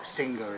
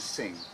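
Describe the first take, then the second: First: The name is said with two syllables. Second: The name is said with one syllable. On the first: This is how some people say the name. "as some people call it" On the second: This is how locals say the name. "here it's known as Sing, like the Thais"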